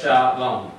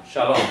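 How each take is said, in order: First: "Sha, Lom" in two separate beats; sounding out the word for learners; syllable by syllable. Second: Said in the usual way. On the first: Shown as a demonstration. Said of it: "Read from right to left".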